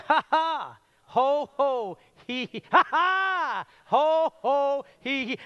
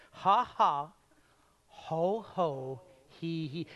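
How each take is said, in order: First: Higher and louder hearty ha ha ho ho hee hee; louder forced laugh. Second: Timid, unsure ha ha ho ho hee hee; half-hearted laugh exercise. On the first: Preacher leads the crowd in a bigger, louder laugh. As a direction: throw yourself into the laugh. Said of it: "do it again". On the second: Preacher has the crowd try a timid laugh. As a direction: try the laugh like you feel dumb. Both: Shown as a demonstration.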